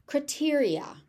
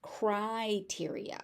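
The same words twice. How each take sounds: First: Criteria as "cruh-TEER-ee-a"; reduced first vowel. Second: Criteria as "cry-TEER-ee-a", slowly; big-jaw first vowel. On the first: Teacher offering one option, criteria said "cruh-teria". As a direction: say "criteria" with a quick schwa in the first syllable. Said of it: "I have also heard criteria". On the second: Teacher offering the other option, criteria said slowly as "cry-teria". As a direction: open wide on "cry" in "criteria". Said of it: "with the big jaw". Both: Shown as a demonstration.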